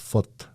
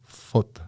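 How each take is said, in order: The two takes are said the same way.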